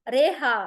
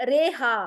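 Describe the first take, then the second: No difference in how they are said.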